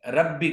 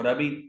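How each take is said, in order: First: The middle consonant is held doubled. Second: The middle consonant is said single. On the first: The speaker calls it right. "मुशद्दद" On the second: The speaker calls it wrong. "मुख़फ़्फ़फ़"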